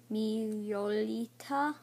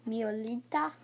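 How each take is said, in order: First: MIOLITA drawn out slowly, syllable by syllable; sounding out. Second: Said in the usual way. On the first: Shown as a demonstration. Child trying a card name for viewers, sounding it out. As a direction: slowly feel your way through Miolita. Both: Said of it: "I'll try and pronounce it".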